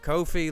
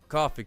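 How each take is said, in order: First: It rhymes with the phrase no fee. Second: It sounds like the drink, coffee. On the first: "like no fee" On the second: "I'm assuming it's coffee, because the whole gimmick is like, buy me a coffee"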